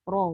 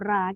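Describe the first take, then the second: First: The r sound is heavy and thick. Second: The r sound is light and thin. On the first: The speaker calls it right. "kita sebut ra. Ha, jadi asalnya memang tafkhim" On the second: The speaker calls it wrong. "kita tak sebut ra"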